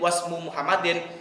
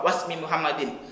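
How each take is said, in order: First: The word ends with a u vowel: wasmu. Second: The word ends with an i vowel: wasmi. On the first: "dibaca doma, dibaca rofa" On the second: "dengan dibaca jar di kasroh"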